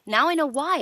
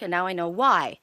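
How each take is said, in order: First: Now I know why, higher and louder on the repeat; emphatic realization. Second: Said in the usual way. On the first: Real, not acted. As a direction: drive the realization home to Alyssa.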